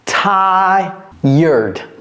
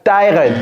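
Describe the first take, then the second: First: It has a 'y' glide and an 'urd' ending. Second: It lacks the 'y' glide and 'urd' ending. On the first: The speaker calls it right. "C'est comme s'il y avait un Y ici et un E U R D" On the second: The speaker calls it wrong. "Ce n'est pas tired"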